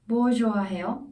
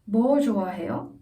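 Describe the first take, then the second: First: The stress falls on the question word. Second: The stress falls on the question word.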